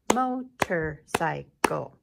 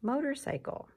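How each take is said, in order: First: "Motorcycle" loud and slow, four separate beats; clapped syllables. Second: Said in the usual way. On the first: Shown as a demonstration. Teacher slowly claps syllables with the class, loud. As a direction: clap out "Motorcycle" slowly beat by beat.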